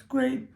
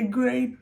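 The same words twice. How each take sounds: First: Dry, mocking "great" with a lift at the end; sarcastic. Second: Said in the usual way. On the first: Real, not acted. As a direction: say "great" like you mean the opposite. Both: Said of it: "I say great sarcastically".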